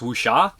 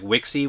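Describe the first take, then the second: First: The word is said like 'Wuxia'. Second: The word is said like 'Wixie'. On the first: The speaker calls it right. "It's Wuxia" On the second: The speaker calls it wrong. "I always want to say it is like Wixie, which is not right"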